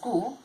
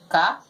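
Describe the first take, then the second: First: The vowel sounds like the letter name 'you'. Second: The vowel sounds like a short 'uh'. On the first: The speaker calls it wrong. "We're not going to read it as ku" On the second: The speaker calls it right. "That's why we read these syllables as ka"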